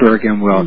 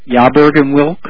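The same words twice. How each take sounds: First: The name is said with a plain English pronunciation. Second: The name is said with a European-sounding pronunciation. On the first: The speaker calls it right. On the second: The speaker calls it wrong.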